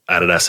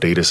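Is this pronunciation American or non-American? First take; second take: non-American; American. First: It is said with a non-American pronunciation. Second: It is said with an American pronunciation.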